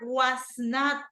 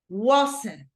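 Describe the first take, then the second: First: Two full words, with the vowel in not. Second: One contracted word, with no vowel in not.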